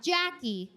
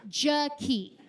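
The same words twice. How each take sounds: First: Jackie stressed on the first syllable; wrong pronunciation. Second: Jaquie as juh-KEE, stressed at the end; name pronunciation. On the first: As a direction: say Jackie as JACK-ee, stress up front. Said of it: "Not Jackie". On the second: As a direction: say Jaquie in two careful beats, juh-KEE. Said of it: "Her name is Jaquie". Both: Shown as a demonstration.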